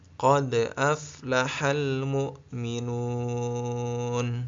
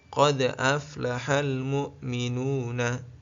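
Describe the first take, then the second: First: The last word ends cut short on the consonant. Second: The last word ends with an added vowel. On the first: The speaker calls it right. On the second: The speaker calls it wrong.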